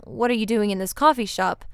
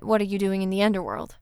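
First: "coffee" picked out as the point of the question; stress on coffee. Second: "underworld" set apart as the real meaning; pointed question. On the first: Hades' question as not meant, stress on "coffee". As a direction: lean on "coffee" to name the place. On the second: Hades' real question to Persephone, pointed at "underworld". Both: A narrator's reading. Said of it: "It became clear that he didn't mean".

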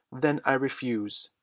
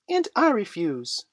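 First: Put-on restrained boy's cry of defiance. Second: Put-on high, loud little-boy defiance; Michael crying out. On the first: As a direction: refuse firmly, only mildly raised. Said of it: "he cried". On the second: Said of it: "cried Michael". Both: A narrator's reading.

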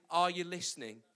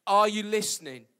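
First: Said in the usual way. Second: Are you listening?: called out louder, landing on Are; louder second asking; louder repeat. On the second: Shown as a demonstration. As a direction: push it out to the room.

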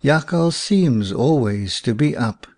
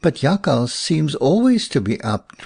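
First: Put-on understated, sober old man's agreement; a touch of gravity. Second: Said in the usual way. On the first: A narrator's reading. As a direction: concede it soberly to the child. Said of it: "said the old man soberly". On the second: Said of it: "remarked Willem".

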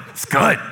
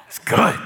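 First: Breathy, unvoiced shrug of a "good"; unimpressed. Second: Said in the usual way. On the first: Shown as a demonstration. Pastor showing how a bored "It's good" sounds, unimpressed. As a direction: let "good" fall away with no interest. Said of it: "it's all in the inflection". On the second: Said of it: "it depends on how you say it".

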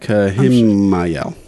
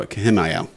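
First: Kahimayel, drawn out very slowly, syllable by syllable; silly mispronunciation. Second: Kahimayel said at normal speed, trailing off; quick repeat. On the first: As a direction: stretch out Kahimayel, very slowly and deliberately. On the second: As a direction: toss off Kahimayel quickly and softly. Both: Shown as a demonstration. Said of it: "That's how I'm gonna go".

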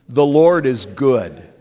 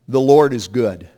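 First: Slow call-and-response. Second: Said in the usual way. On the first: Shown as a demonstration. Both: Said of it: "Say that with me".

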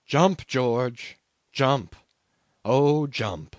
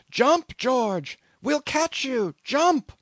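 First: Mild yell at ordinary pitch; understated retold yell. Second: High, urgent scream; screamed urging. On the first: Survivor recalls men yelling after a dead man, restrained yell. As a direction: suggest the yelling without fully raising the voice. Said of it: "they were yelling after one dead man". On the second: Men in the boat urge their shipmate to jump, screaming. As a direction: scream up to him, pitched very high. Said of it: "they screamed". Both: A narrator's reading.

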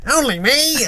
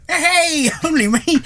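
First: Put-on high, hammy Mancunian accent; badly faked Mancunian cheer. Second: High, bad Mancunian accent with a laugh; cheery Mancunian greeting, badly faked. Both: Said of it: "some weird Mancunian voice".

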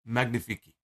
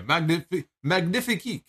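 First: French accent. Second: Hammed-up French chef saying magnifique; French accent. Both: Shown as a demonstration. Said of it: "I'm trying to do the French, uh, the French gimmick".

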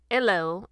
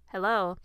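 First: Lightly mimicked British hello with a dropped H; mock British greeting, H dropped; British accent. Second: Said in the usual way. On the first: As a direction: put on a slight fake British accent. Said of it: "in a British accent". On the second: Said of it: "the Good Place actress said".

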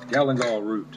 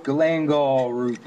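First: "Galangal" said as KA-lun-gall, stress on the first syllable, the final l clear; "Galangal" with stress on KA, quick and even; second try at galangal. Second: "Galangal" said as kuh-LANG-gaw, stress on the second syllable, a little slower; "Galangal" with a hard k, stress on LANG, the final l dropped; first try at galangal. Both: Shown as a demonstration. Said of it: "However the hell you wanna say that".

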